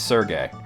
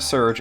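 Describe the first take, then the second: First: The name is said with an added second syllable. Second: The name is said as one syllable. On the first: The speaker calls it wrong. "it's Sergey" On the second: The speaker calls it right. "Recently found out it's actually Serge"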